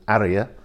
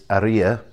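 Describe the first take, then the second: First: The stress is on the first syllable. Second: The stress is on the second syllable. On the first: The speaker calls it wrong. "rather than Aria" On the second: The speaker calls it right. "There's an accent on the I, which is why it's Aria"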